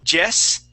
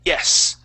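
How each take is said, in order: First: The word begins with a J-like sound. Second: The word begins with a quick Y glide. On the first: The speaker calls it wrong. "instead of Jess for yes" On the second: The speaker calls it right. "we say es"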